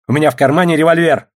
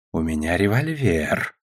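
First: Raised, loud warning about a gun; high, forceful, agitated warning. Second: Low, slow menace; soft, drawn-out, lowered warning; threatening. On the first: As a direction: blurt out an armed threat in a scuffle. Agitated threat in a scuffle. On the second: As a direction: threaten quietly and deliberately. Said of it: "угрожающе повторил советник". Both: A narrator's reading.

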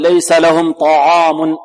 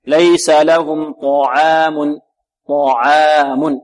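First: ليس لهم طعام with a light ta and a heavy alif, done as a mistake; wrong light ta. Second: ليس لهم طعام slow, with a heavy ta and a light ain in طعام. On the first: Teacher imitating a student's mistaken طعام. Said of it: "البعض يرقق العين ... خطأ". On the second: Teacher modelling the correct طعام for students. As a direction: give طعام a full heavy ta. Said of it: "فخم الطاء وترقق". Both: Shown as a demonstration.

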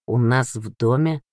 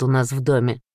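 First: Understated surprise with a questioning rise; lightly surprised, voice rising at the end; mildly surprised. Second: Said in the usual way. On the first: A narrator's reading. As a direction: echo it as a puzzled question. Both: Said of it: "удивился Данил".

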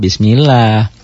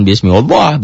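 First: "Bismillah" with a thin, light "llah"; correct Bismillah. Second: "Bismillah" with a thick, dark "llah", the wrong way; mock the mistaken heavy reading of "Bismillah". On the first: Teacher giving students the right reading after the wrong one. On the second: Teacher warning students against the wrong reading. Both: Shown as a demonstration. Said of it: "jangan Bismillah".

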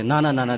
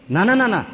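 First: Gentle no. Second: Loud refusal. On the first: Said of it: "મહારાજ કે". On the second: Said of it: "એમ કે". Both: Acted.

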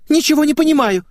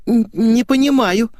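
First: Put-on very high, loud girlish wail; squealed protest. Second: Put-on high, slow, hesitant girlish denial; faltering little voice. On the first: Girl denies everything to her friend, loud squeal. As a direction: shriek your confusion. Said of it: "взвизгнула её собеседница". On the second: Girl feigns confusion to her friend, faltering high voice. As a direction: stumble into it in a small high voice. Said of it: "зашептала Светик". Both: A narrator's reading.

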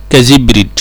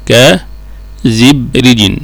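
First: Said in the usual way. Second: كزبرج slowly split into ka, zib, rijin; syllable by syllable. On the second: Shown as a demonstration. Teacher breaking down an example for students, كزبرج slow and segmented. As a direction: draw out كزبرج in separate chunks with its full -in ending.

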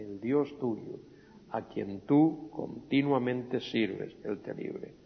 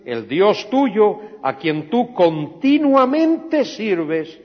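First: Soft, slow, fading to a whisper; hushed repeat. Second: Loud, slow, high proclamation; the king calls it out to the pit, loud and slow; king's solemn call. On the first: Shown as a demonstration. Preacher repeats the king's words to the congregation, hushed. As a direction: let it sink to a breath. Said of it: "same words repeated quietly". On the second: Acted. King to Daniel at the lions' den, a loud slow call.

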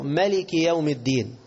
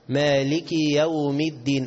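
First: "ملك" with short first a; short-vowel reading. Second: Slow "مالك" with a long first aa; long-alif reading. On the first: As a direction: recite "ملك" without stretching the first vowel. (قراءة «ملك» دون ألف) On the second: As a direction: recite "مالك" stretching the alif. (قراءة «مالك» بمد الألف) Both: Shown as a demonstration. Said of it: "كلاهما قراءة صحيحة".

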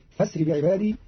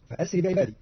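First: فاسر run together as "fasri", no glottal stop; connecting hamza. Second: Said in the usual way. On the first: Shown as a demonstration. Teacher showing Qalun's reading, فاسر without the hamza. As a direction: say فاسر as "fasri", not "fa-asri". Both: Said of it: "بهمز وصل بدل الهمزة المحققة".

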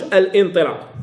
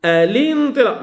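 First: "الانطلاق" broken as al-intilaq, glottal stop after al; hamza wrongly sounded. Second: "الانطلاق" run together as a-lintilaq, no glottal stop; hamza dropped, linked. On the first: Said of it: "ما كنقولش". («الانطلاق» بقطع الهمزة خطأً: أَلْ إِنطلاق) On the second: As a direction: link the l straight into i in "الانطلاق". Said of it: "ما كنقولش الانطلاق". («الانطلاق» بوصل الهمزة: أَلِنطلاق) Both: Shown as a demonstration.

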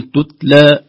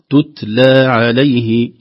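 First: "تتلى" with the hams of the taa lost, louder; mock mistake: "تتلى" read without the hams of the taa; wrong hams. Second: "تتلى" with a light whisper of breath on the silent taa, very slow; light hams on taa. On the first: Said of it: "لا نقول تتلى". (نطق خاطئ لـ"تتلى" دون همس التاء) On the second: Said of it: "سكون في التاء الثانية فيه همس خفيف". ("تتلى" بهمس خفيف في التاء الساكنة ببطء) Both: Shown as a demonstration.

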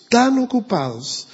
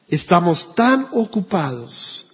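First: "tan" lifted high for emphasis; "tan ocupados" repeated higher as a preacher's push; stress on tan. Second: Said in the usual way. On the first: Shown as a demonstration. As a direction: hit "tan" hard.

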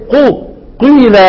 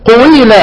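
First: قيل with only a hint of rounding on the ق, slower; قيل said as a plain ي with a trace of ضمة before it; light ishmam. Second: قويل said with a full و, the overdone reading; قويل with a full و after the ق, a bit higher; over-rounded wrong form. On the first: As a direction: show the gentle قو melting into قيل, unforced. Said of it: "لا نتكلف لها". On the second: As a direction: spell out قويل with a clear و glide as the mistake to avoid. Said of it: "يبقى رجعت إلى الإيه؟". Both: Shown as a demonstration.

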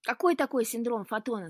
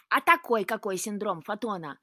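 First: Loud, higher-pitched query; puzzled question. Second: Loud, testy throwing-back of words; disgruntled retort. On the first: Luka questioning the cat's odd excuse, puzzled. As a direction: demand to know what on earth that is. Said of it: "спросил Лука". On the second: Cat answering Luka's question, disgruntled. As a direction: grumble it back at full volume. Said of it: "недовольно буркнул кот". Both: A narrator's reading.

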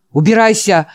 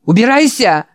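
First: Loud shout to get out. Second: Put-on high shrill shriek of an old man. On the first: Acted. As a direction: bark at him to leave. Old man screams again. (громкий крик) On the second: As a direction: scream it out, get out. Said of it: "завизжал старик". (визжа, прогоняет)

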